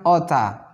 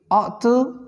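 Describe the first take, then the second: First: The words run together into one reduced word. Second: Both words are said fully and separately.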